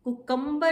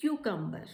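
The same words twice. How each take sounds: First: CUCUMBER as koo-KUM-bar; higher CUCUMBER, plain "koo" and heavy KUM; wrong pronunciation. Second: CUCUMBER as KYOO-kum-ber; correct pronunciation. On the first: Teacher showing students the mistake, CUCUMBER as koo-KUM-bar. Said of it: "is the wrong pronunciation". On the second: Teacher modelling for students, CUCUMBER as KYOO-kum-ber. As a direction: begin CUCUMBER with a "kyoo" glide. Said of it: "the right pronunciation is". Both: Shown as a demonstration.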